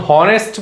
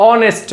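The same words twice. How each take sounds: First: হনেস্ট with a clear h sound at the start; wrong pronunciation. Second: অনেস্ট with a silent h, starting on the vowel; correct pronunciation. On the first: Teacher shows students the wrong way, হনেস্ট with a sounded h. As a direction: say হনেস্ট sounding the h, the way it should not be said. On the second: Teacher shows students the right way, অনেস্ট with a silent h. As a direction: say অনেস্ট opening straight on the vowel. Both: Shown as a demonstration. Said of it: "হনেস্ট বলো না অনেস্ট বলো".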